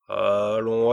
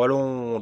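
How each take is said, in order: First: Loud, impatient urging. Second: Louder, pushier repeat; impatient. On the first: Impatient king pushing the dwarf for an idea. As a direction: hurry him, out of patience. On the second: Impatient king repeating his demand, more insistent. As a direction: press harder the second time. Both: A narrator's reading. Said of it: "dit le roi impatienté".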